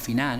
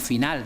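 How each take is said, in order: First: The final l is dropped. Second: The final l is pronounced. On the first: This is how locals say it. "Eliminación de algunas consonantes finales" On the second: This is how other regions say it. "No decimos"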